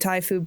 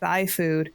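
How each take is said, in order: First: Thai is pronounced the standard way. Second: Thai is pronounced in an altered way. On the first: The speaker calls it right. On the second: The speaker calls it wrong.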